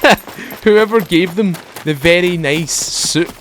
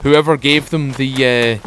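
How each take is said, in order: First: Laughing through the words; chuckling while telling it. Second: Said in the usual way. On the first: Real, not acted. Laughs at the soup story.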